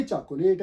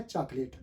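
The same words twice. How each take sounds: First: चॉकलेट with a sounded middle o, "chak-o-layt"; the wrong "cha-ko-LAYT" for चॉकलेट; rejected pronunciation. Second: चॉकलेट as two syllables, "chaak-lit"; the correct "CHAAK-lit" for चॉकलेट; accurate pronunciation. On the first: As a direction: say चॉकलेट as three syllables, as spelt. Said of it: "ना ये चॉकलेट है". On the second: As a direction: say चॉकलेट without the middle o. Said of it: "जो अगर accurate आप इसको". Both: Shown as a demonstration.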